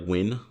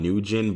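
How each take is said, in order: First: The name is said with one syllable. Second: The name is said with two syllables. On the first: The speaker calls it right. "if you pronounce it properly, it's like Win" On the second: The speaker calls it wrong. "I know the name is like On Nugent"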